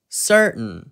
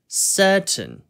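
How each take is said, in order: First: American accent with R coloring and swallowed T. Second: British accent with the T sound clearly pronounced. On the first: "미국식 발음 같은 경우에는 ... 먹는 발음인" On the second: "영국식 같은 경우에는 ... R 발음과 T 발음을 살려가지고"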